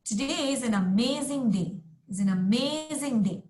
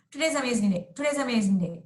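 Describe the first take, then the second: First: "amazing" carries the stress, the rest flows; teacher modelling the natural rhythm for the class. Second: "Today's amazing day" run together, words swallowed; teacher showing the class the overly slurred way. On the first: Stress on amazing. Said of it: "You see how natural speakers". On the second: Words run together. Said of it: "it's not as though I'm saying". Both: Shown as a demonstration.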